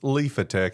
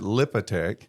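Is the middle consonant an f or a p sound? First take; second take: f; p. First: The middle consonant is an f sound. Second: The middle consonant is a p sound. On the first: The speaker calls it right. "there's a P H that should be pronounced Leafatech" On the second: The speaker calls it wrong. "for years I've, I've pronounced it Lipatech"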